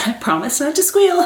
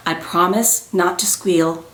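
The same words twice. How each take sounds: First: Laughing, squeaky rise at the end; mock squeal. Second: Said in the usual way. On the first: Real, not acted. Vlogger vowing not to squeal, half squealing it. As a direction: pitch climbing high on "squeal". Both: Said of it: "I hate that so much when people squeal".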